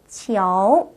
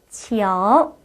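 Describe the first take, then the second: First: A light o sound is heard in the middle. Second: The same.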